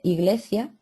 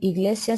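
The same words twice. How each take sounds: First: The consonant there is a th sound. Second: The consonant there is an s sound. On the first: "se dice C" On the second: "en vez de decir la S"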